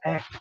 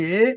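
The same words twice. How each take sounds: First: The vowel is an open mid e. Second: The vowel is a closed mid e.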